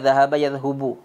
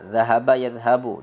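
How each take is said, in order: First: The vowel after the h is u. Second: The vowel after the h is a. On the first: The speaker calls it wrong. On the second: The speaker calls it right.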